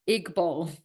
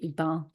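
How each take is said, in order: First: The second syllable sounds like the word ball. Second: The second syllable does not sound like ball. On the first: It is the captain's mispronunciation. The speaker calls it wrong. "it's written I C K um, hyphen B A L L, like a ball" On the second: It is the proper pronunciation of the name. The speaker calls it right. "it should be Iqbal"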